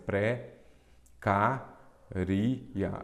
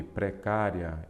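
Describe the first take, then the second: First: "pré, cá, ri, e a" in four pieces, pausing between them; wrong syllable split. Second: "Precária" slowly, with the final "ria" as one syllable; correct syllable split. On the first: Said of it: "está errado, porque a forma correta de separar". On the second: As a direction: draw out "Precária", keeping the ending diphthong together. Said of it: "a forma correta de separar". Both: Shown as a demonstration.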